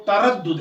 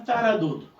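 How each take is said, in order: First: तरद्दुद with a firmly doubled d, ta-rad-dud; correct pronunciation. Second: तरद्दुद said easily with a single d; relaxed pronunciation. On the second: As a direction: glide through तरद्दुद without doubling the द. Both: Shown as a demonstration. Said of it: "सही लफ्ज़ इसका जो है".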